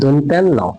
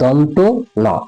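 First: It runs together as one word, 'dontenno'. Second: It is said as two words, 'donto no'. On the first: The speaker calls it wrong. "এটার নাম আমি আগে বলতাম দন্তেন্ন" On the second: The speaker calls it right. "এই বর্ণটির নাম হচ্ছে দন্ত ন"

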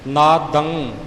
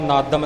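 First: The word ends in a nasal sound held in the throat. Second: The word ends with an m sound. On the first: The speaker calls it right. "ਇਹ ਸਾਡੇ ਗਲੇ ਵਿੱਚ ਆਵਾਜ਼ ਰਹਿ ਜਾਵੇਗੀ, ਇਹਨੂੰ ਇਸੇ ਤਰ੍ਹਾਂ ਬੋਲਣਾ ਹੈ" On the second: The speaker calls it wrong. "ਨਾਦਨ ਜਾਂ ਨਾਦੰਗ ਜਾਂ ਨਾਦਮ ਨਹੀਂ ਬਣੇਗਾ"

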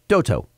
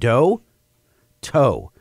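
First: The two names run together as one word. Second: The two names are said separately with a break. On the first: It sounds like a single name. "when you say it fast, everyone thinks it's like one word" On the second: It is a first name and a last name. "It's first and last name"

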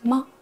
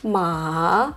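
First: The syllable is short, light and quick. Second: The pitch rises through the syllable. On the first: "пятый тон или нулевой тон, это очень легко" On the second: "Второй тон"

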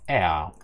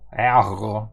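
First: The r becomes a short a vowel. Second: The r is a throaty consonant sound. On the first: The speaker calls it right. "Вокалізується буква р і перетворюється в а" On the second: The speaker calls it wrong. "не треба горлову, так теж ніхто не говорить"

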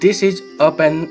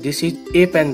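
First: The article is a short, weak 'uh' sound. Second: The article is a full 'ay' sound. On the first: The speaker calls it right. "This is अ pen नहीं कहकर" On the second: The speaker calls it wrong. "कुछ students इसको गलत पढ़ते हैं"

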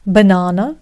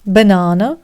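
First: It is said in a British accent. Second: The same.

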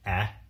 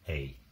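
First: The vowel is said as a short sound. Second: The vowel is said like its letter name. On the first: "Short vowels" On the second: "Long vowels are just the names of the vowels"

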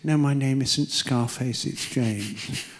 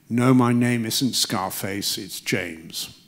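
First: It is said weakly, without firmness. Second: It is said firmly, without aggression.

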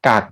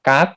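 First: The syllable is said with a low tone. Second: The syllable is said with a high tone. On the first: "กักไม่มีรูปวรรณยุกต์" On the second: "กักไม้ตรี"

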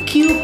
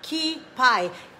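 First: It sounds like cue-pee, ending in pee. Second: It sounds like key-pie, ending in pie. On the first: The speaker calls it right. "QP pala yung pronunciation niya na tama" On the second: The speaker calls it wrong. "nagkamali ako. Sinabi ko sa Cooking Ina Show na Kipai"

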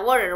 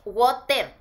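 First: The t is softened and not clearly pronounced. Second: The t is pronounced as a clear t. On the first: It sounds like the local way. "aquí la T no se dice" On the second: It sounds British. "decíamos water, con T"

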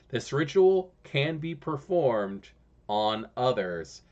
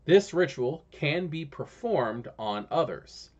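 First: It is said a little more slowly. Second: It is said at a normal pace.

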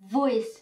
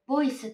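First: The word starts with a clear v sound. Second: The word starts with a b-like sound. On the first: The speaker calls it right. "できればここのV の発音も" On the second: The speaker calls it wrong. "voice って言ってしまわない。"

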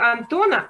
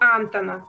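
First: The stress is not on the first syllable. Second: The stress is on the first syllable. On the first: This is the Russian way of saying the name. "вот на русский манер" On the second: This is the Norwegian way of saying the name. "а на норвежский ... На первый слог ударения"

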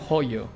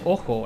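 First: The name starts with a throaty h sound. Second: The name starts with a vowel sound. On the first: The speaker calls it right. "Entonces se pronuncia joyo" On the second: The speaker calls it wrong. "Le dice, ojo ... Entiendo que lo hace de broma"

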